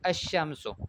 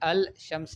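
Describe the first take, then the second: First: The L is silent, blending into a doubled sh. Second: The L of the article is clearly pronounced. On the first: The speaker calls it right. "मदरसों में कैसे पढ़ते हैं" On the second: The speaker calls it wrong. "अल शम्स नहीं पढ़ा। स्कूल वाले ऐसे ही पढ़ते हैं"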